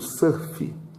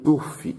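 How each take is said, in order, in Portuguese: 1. A vogal soa como a e o misturados. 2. A vogal é um som de oo simples. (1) "eu leio surf, como se fosse um A misturado com O" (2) "Aqui eu tenho U, mas eu não leio surf"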